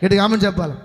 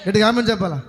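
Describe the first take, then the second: No difference in how they are said.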